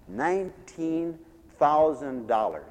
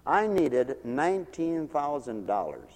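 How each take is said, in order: First: "Nineteen" drawn out very slowly, then "thousand dollars"; slow, deliberate emphasis on "Nineteen thousand dollars"; emphatic repeat. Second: Said in the usual way. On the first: Real, not acted. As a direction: spell out the figure slowly for weight. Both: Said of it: "Are you hearing this?".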